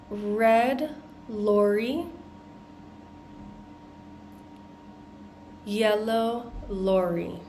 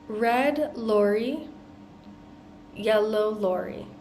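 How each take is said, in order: First: The phrase is said at a slower pace. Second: The phrase is said at a faster pace.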